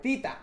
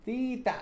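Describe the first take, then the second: First: "Tita" tee-ta, pitched up again; "Tita" spoken tee-ta, higher; repeating a pronunciation. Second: "Tita" said higher, tee-ta; "Tita" with a plain t, tee-ta; repeating a pronunciation. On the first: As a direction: settle on "Tita", tee-ta, up high. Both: Shown as a demonstration. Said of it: "says Tyler Johnson".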